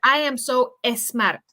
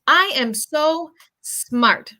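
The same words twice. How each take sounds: First: An extra vowel is added before the S. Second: The S starts directly with no vowel. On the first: The speaker calls it wrong. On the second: The speaker calls it right.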